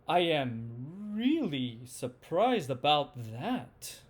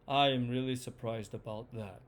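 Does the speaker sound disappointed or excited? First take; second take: excited; disappointed. First: The voice sounds excited, moving up and down. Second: The voice sounds disappointed, falling all the way down. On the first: "number one was the excited one" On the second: "number two was the disappointed one"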